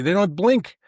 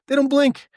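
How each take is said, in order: First: Said in the usual way. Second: "don't" punched much higher and louder; "They don't blink" with "don't" hit high and hard; stress on DON'T. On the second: Shown as a demonstration. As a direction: hammer "don't" in amazement.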